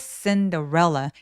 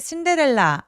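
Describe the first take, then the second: First: Two syllables are said with strong stress. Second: All syllables are said evenly, without stress. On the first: The speaker calls it right. "강세는 두 번 오는데요" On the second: The speaker calls it wrong. "신데렐라 아니고"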